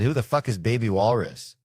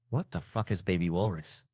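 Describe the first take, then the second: First: Exasperated re-ask, WHO brought out strongly; stress on WHO. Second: Softer, held-back confrontation; subdued demand. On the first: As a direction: lean on "who" in a raised, insistent question. Re-asks louder after being corrected. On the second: First asks, low and subdued. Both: Retold or imitated.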